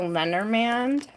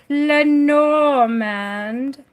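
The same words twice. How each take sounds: First: It is said in a plain, ordinary way. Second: It is said in a fancy, showy way.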